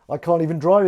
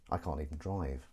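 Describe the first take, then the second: First: Higher, projected delivery; loud admission. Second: Low, subdued mumble; quiet admission. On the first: Host repeating his confession for effect, loud admission. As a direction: throw it out loud and high. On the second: Host admitting he can't drive, quiet admission. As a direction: drop it low and soft. Says it low, then repeats louder. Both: Acted.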